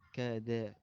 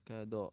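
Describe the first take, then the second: First: The vowel is light and open like a. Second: The vowel is dark, heavy and rounded like o. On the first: The speaker calls it right. "tapi da" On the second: The speaker calls it wrong. "jangan do"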